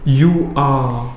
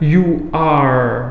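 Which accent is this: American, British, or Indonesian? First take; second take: British; American. First: It is said in a British accent. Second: It is said in an American accent. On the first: "kalau orang British" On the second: "Kalau orang American misalkan"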